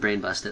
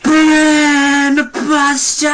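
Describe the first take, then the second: First: The phrase is said at normal volume. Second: The phrase is screamed very loudly.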